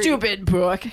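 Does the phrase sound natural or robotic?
natural. It is said with natural, expressive inflection. The phrase is said as one spoken phrase. The speaker calls it right.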